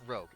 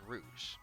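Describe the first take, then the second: First: The word ends with a hard g sound. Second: The word ends with a soft zh sound. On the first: The speaker calls it wrong. "I keep wanting to say Armor Rogue, but it's not Rogue" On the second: The speaker calls it right. "it's Rouge"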